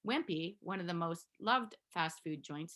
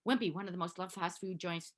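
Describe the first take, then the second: First: It is read aloud at a steady pace. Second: It is rushed through quickly. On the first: The speaker calls it right. "you have the cadence to be able to read this out loud" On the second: The speaker calls it wrong. "not like"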